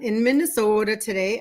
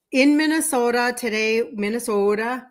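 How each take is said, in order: First: Said in the usual way. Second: Showing off her Minnesota accent; Minnesota-style long O in Minnesota. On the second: Shown as a demonstration. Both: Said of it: "can you hear my accent?".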